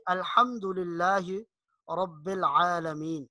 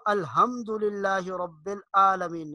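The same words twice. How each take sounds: First: Pharyngeal ح in الحمدللہ, squeezed ع in العالمین; correct ha and ain. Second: Plain h in الحمدللہ, glottal stop in العالمین; wrong ha and ain. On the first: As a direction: give الحمدللہ and العالمین their throat letters. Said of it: "پڑھنا ہے". (الحمدللہ میں حا، العالمین میں عین) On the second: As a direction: say الحمدللہ and العالمین without throat letters. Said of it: "نہیں پڑھنا". (الحمدللہ میں ہا، العالمین میں ہمزہ) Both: Shown as a demonstration.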